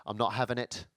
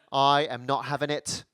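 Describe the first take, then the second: First: A low, soft, grumbling British refusal; mock British refusal. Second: Slow and deliberate, leaning on "not"; "I am not having it" spelled out slowly, every word weighted; firm British refusal. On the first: Comic imitating a stubborn Brit, low and soft. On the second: Retold or imitated. Comic imitating a stubborn Brit, slow and firm. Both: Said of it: "people say".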